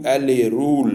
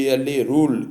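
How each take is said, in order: Both takes have the same delivery.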